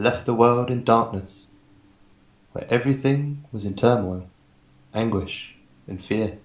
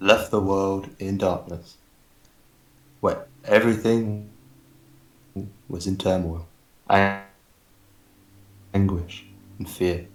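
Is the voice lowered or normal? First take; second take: normal; lowered. First: It is read in his ordinary speaking voice. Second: It is read in a deliberately lowered voice.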